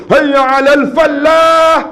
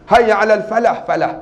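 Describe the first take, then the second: First: "falah" as a loud, long "fal-laah"; slow, high azan call with a wrongly heavy "falah"; mispronounced call to prayer. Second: Said in the usual way. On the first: Shown as a demonstration. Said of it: "macam kan silap sebut". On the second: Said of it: "Ha, tak betul tu".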